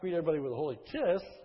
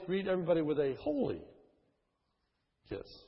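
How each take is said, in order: First: The stress falls on the word kiss. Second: The stress falls on the word holy. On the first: The kissing itself is the point. The speaker calls it wrong. "the idea is not" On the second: The holiness of the greeting is the point. The speaker calls it right. "but it's"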